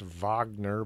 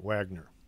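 First: The name begins with a V sound. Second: The name begins with a W sound. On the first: "I know it's pronounced Wagner" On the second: "it's spelled with a W, so I pronounce it Wagner"

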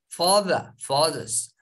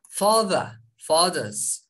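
No difference in how they are said.

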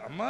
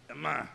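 First: The word is called out warmly and lovingly. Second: The word is called out plainly, without warmth.

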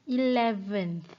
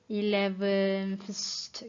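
First: The word ends with a th sound. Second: The word ends with an st sound. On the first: The speaker calls it right. "The correct answer will be 11th" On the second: The speaker calls it wrong. "we did not say 11th. Okay, this is wrong"

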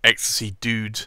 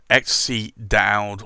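First: The last word rhymes with 'food'. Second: The last word rhymes with 'loud'. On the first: "as I believe it's actually pronounced" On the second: "I'm still going to call it Dowd"

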